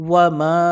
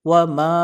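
The two takes are said the same way.

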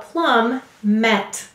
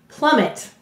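First: The word is split in two, with a full second syllable. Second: The word is said smoothly, with a weak second syllable. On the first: This is a special way of saying the word to help spell it. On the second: This is the normal way to say the word.

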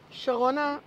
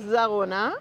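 First: The name begins with a 'sh' sound. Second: The name begins with a 'z' sound. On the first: This is the original form, taken from the biblical Sharon. "הכוונה המקורית הייתה שרונה, מבחינת שרון" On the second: This is how the German settlers said the name. "הם לא אומרים את השין, הם אומרים זרונה"

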